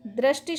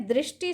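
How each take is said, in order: First: दृष्टि said as "drashti", with "ra"; wrong pronunciation. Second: दृष्टि said as "drishti", with "ri"; correct pronunciation. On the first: Teacher showing students the error, दृष्टि as "drashti". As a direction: put a short a after the r in दृष्टि. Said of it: "शब्द गलत है". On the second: Teacher giving students the right form, दृष्टि as "drishti". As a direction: put a short i after the r in दृष्टि. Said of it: "शब्द सही है". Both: Shown as a demonstration.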